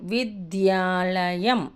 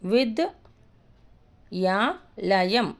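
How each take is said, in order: First: The word is said smoothly as one unit. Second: The word is broken into separate parts. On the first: The speaker calls it right. "కాబట్టి విద్యాలయం" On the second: The speaker calls it wrong. "అలా చదివితే wrong"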